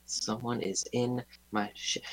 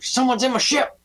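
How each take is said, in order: First: It is said at a normal speaking volume. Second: It is yelled loudly.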